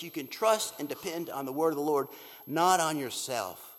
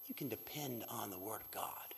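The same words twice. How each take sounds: First: Loud declaring. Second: Whisper. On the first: Preacher declares the refrain. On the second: Preacher hushes after a pause. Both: Acted.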